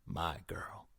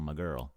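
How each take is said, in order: First: "My" set apart in a soft, whispery voice; stress on My. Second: Said in the usual way. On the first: A narrator's reading. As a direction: murmur "My" possessively, dropping the volume. Narrator repeats phrase pointedly.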